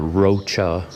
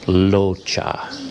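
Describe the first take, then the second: First: The name begins with an R sound. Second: The name begins with an L sound. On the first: The speaker calls it wrong. "Turns out I was wrong on both counts" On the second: The speaker calls it right. "it's not pronounced with an R sound. It actually has more of an L sound"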